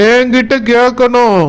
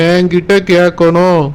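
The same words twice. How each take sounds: First: என்கிட்ட hit hard with a falling end; demanding stress. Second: என்கிட்ட கேட்கணும் dropped much lower, muttered-down insistence; lower repeat. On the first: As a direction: insist on என்கிட்ட, leaning on it. (என்கிட்ட என்ற சொல்லுக்கு அழுத்தம்) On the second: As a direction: drop the voice low on the repeat. (தாழ்ந்த குரலில் மீண்டும் சொல்லுதல்) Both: Acted. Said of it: "repeats the demand".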